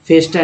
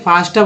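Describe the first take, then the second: First: The first vowel sounds like 'eh'. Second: The first vowel sounds like 'ah'. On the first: The speaker calls it wrong. "फेस्टा नहीं" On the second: The speaker calls it right. "फास्टा बोला जाता है"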